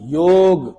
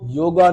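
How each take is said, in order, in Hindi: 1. शब्द 'g' ध्वनि पर खत्म होता है। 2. शब्द के अंत में एक अतिरिक्त 'a' स्वर जुड़ा है। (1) "हमारा जो शब्द है वो योग है" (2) "योगा नहीं"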